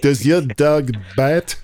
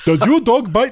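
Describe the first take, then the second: First: It is said in a French accent. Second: It is said in an Indian accent. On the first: The speaker calls it right. "your French accent is probably funnier" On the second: The speaker calls it wrong. "it doesn't work with an Indian accent"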